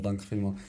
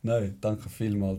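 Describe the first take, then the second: First: Said in the usual way. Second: Nein, danke vielmals, slowly, each syllable held long; slow, drawn out. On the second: Shown as a demonstration. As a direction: stretch every word of Nein, danke vielmals out at half speed.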